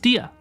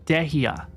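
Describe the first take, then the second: First: The name is said with two syllables. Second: The name is said with three syllables. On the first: The speaker calls it right. "her name was pronounced Dia" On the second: The speaker calls it wrong. "I thought the pronunciation of her name was Dehia"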